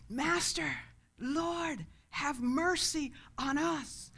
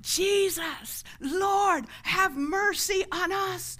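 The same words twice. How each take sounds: First: Raised pitch, drawn-out plea; crying out. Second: High, loud drawn-out plea; crying out louder. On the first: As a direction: call out for mercy at moderate volume. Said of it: "they cried out to Jesus". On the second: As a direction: shout over a crowd for mercy. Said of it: "they cried all the louder". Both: Retold or imitated.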